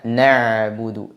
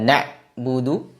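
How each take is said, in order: First: The ain sound is let partly flow. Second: The ain sound is cut off like a glottal stop. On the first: The speaker calls it right. "dialirkan sebagiannya" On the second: The speaker calls it wrong. "Tidak dibaca na'budu seperti huruf hamzah"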